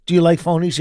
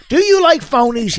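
First: Said in the usual way. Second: High, pressing demand for an answer; insistent questioning. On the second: Real, not acted. Husband pressing wife for yes or no, insistent and high. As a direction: hammer the question, pitched way up.

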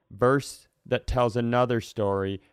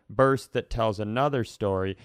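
Both takes have the same delivery.

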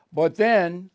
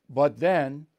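First: Emphatic but then. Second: Said in the usual way. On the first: Real, not acted. Dramatic build before Capitol breach.

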